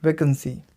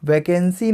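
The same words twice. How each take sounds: First: "वैकेंसी" as "वेकंसी", middle vowel swallowed; correct pronunciation. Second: "वैकेंसी" with a full "केन" in the middle; wrong pronunciation. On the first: Teacher correcting the mistake, "वैकेंसी" said "वेकंसी". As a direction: make the middle of "वैकेंसी" a quick schwa. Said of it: "वैकेंसी नहीं". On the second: Teacher rejecting a mistake, "वैकेंसी" with a full middle E. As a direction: sound out "वै-केन-सी". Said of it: "नहीं". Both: Shown as a demonstration.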